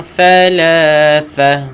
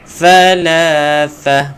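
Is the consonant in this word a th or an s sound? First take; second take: th; th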